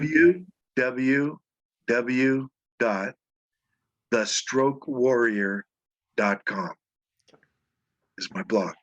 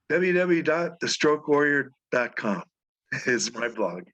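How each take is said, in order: First: It is said slowly and deliberately. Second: It is said at a normal, quicker pace.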